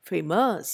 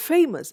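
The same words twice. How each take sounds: First: "famous" as fa-MOUS, ending drawn out; wrong second-syllable stress. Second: "famous" as FA-mous, short ending; stress on first syllable. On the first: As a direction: push the weight onto "mous" in "famous". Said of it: "and not famous". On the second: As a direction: lean on FA in "famous". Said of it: "I say famous and not". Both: Shown as a demonstration.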